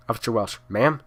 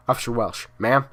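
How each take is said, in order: Both takes have the same delivery.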